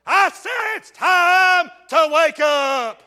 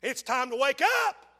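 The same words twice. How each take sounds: First: Louder, higher and slow; slow preaching shout. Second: Said in the usual way. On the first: Real, not acted. Preacher rousing his sleepy congregation, slow shout.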